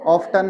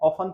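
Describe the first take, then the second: First: The t sound is clearly pronounced. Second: The t sound is left silent. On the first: The speaker calls it right. "ऑफ्टन होता है" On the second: The speaker calls it wrong. "मैं इसे ऑफन पढ़ता था"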